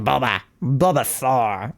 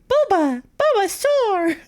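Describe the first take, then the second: First: It is said in a lower voice. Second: It is said in a higher voice.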